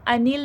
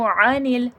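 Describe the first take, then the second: First: It begins with a plain light glottal stop. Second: It begins with a deep sound from mid-throat. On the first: The speaker calls it wrong. "इसको अनिल नहीं कह दीजिएगा" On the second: The speaker calls it right. "आइन का proper sound दीजिएगा"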